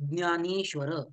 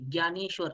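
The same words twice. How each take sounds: First: It is said the Maharashtrian regional way. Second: It is said the Uttarakhand regional way. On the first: "आपण महाराष्ट्रानुसार ज्ञ म्हणतो" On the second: "ज्ञानेश्वर असं म्हणतात"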